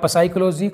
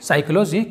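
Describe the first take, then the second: First: The word begins with a short p sound. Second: The word begins directly with an s sound. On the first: The speaker calls it wrong. "कुछ अजीब तरह से पढ़ते हैं" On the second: The speaker calls it right. "जबकि ये होगा दोस्तों साइकोलॉजी"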